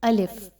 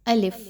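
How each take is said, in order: No difference in how they are said.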